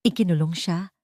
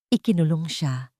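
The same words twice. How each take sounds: The two takes are said the same way.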